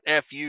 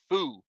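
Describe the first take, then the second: First: The name is spelled out as two letters. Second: The name is said as a single syllable. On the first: The speaker calls it wrong. "that's not uh, not F U" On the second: The speaker calls it right. "Excuse me"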